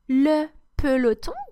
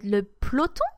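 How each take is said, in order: First: The E in the word is pronounced. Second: The E in the word is dropped.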